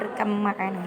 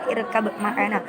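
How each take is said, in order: First: The b sound is merged into the m. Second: The b sound is kept before the m. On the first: The speaker calls it right. "tapi sebenarnya membacanya" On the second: The speaker calls it wrong. "kalau orang awam yang belum mempelajari"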